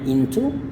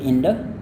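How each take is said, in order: First: The middle consonant is a clear t sound. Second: The middle consonant is a soft d sound. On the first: "tapi itu jarang ya kalau misalkan dalam kehidupan sehari-hari" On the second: "jadi bunyinya menjadi bunyi D yang halus"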